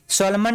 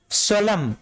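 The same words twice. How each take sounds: First: सोलमन with a final "-man"; wrong reading, N sounded. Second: सोलम ending on M; correct reading, silent N. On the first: Teacher warning students off a misreading, सोलमन with N sounded. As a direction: pronounce the N at the end of सोलमन. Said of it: "नहीं पढ़ेंगे इसको". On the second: Teacher introducing the next word to students, सोलम with silent N. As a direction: leave the N off सोलम. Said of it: "सोलमन नहीं पढ़ेंगे इसको". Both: Shown as a demonstration.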